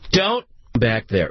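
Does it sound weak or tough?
tough. It sounds tough and stern, like a dad.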